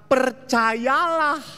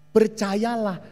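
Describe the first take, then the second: First: Slow, stretched, higher percayalah; drawn-out stress. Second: Said in the usual way. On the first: Shown as a demonstration. Preacher drawing out Percayalah for the congregation. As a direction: stretch out Percayalah slowly as a plea. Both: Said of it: "Tapi apa? Percayalah. Percayalah".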